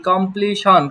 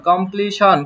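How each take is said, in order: Both takes have the same delivery.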